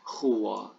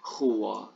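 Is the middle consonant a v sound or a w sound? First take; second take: w sound; w sound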